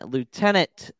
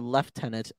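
First: It is said in an American accent. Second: It is said in a British accent.

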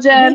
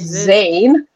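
First: The name begins with a j sound. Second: The name begins with a z sound. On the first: "we can't pronounce in Bangladesh ... it's like Jen" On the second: "my son's name is Zane"

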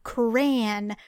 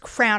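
First: It is said with two syllables. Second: It is said as one syllable. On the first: The speaker calls it right. "Repeat after me" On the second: The speaker calls it wrong. "I don't know what you're saying, but it is crown"

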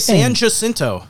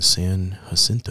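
First: It is said in the speaker's plain everyday voice. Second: It is said in a put-on public radio voice. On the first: "Or we say San Jacinto" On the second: "we're talking in NPR voices"

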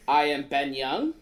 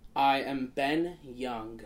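First: It is said as a question, rising. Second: It is said as a statement, falling.

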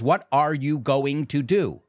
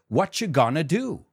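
First: Each word is said separately and fully. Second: The first words blend into one reduced word. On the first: The speaker calls it wrong. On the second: The speaker calls it right.

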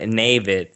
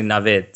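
First: The name is said to sound like David. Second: The name is said with a short i vowel. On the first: The speaker calls it wrong. "because that's, you know, a variation of David, which I don't like" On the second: The speaker calls it right. "with a short kind of I to it"

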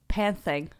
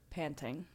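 First: The middle consonant sounds lisped, like th. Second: The middle consonant is a plain t sound. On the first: The speaker calls it wrong. "What word did you say wrong for 3 years? / She sounds like she has a fucking lisp" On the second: The speaker calls it right. "And what's the actual word? / It is panting"

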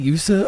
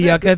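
First: The middle consonant is a soft s sound. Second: The middle consonant is a hard k sound.

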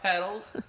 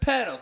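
First: The middle consonant sounds like a D. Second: The middle consonant is a clear T sound. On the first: The speaker calls it wrong. "not with a D" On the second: The speaker calls it right. "Petals, with a T"

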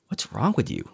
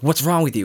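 First: It sounds curious and puzzled. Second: It sounds accusing and hostile.

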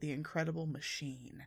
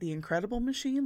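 First: The name is said in an ominous, creepy way. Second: The name is said in a plain, neutral way. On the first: A big, dangerous, menacing machine. "which sounds like a big, creaky danger machine" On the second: A machine that makes incredible things. "like a machine that makes incredible stuff? That's not creepy"

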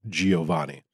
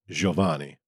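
First: The name is said with an American pronunciation. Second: The name is said with an Italian pronunciation. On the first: This is how Americans with the surname say it. "people here in the States whose last name was Giovanni, and they pronounced it Giovanni" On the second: This is the form they were told is correct. "we have been told that it is pronounced Giovanni"

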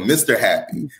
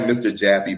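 First: The second word begins with a breathy H sound. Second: The second word begins with a hard J sound. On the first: The speaker calls it right. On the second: The speaker calls it wrong. "It looks like Mr. Jappy"

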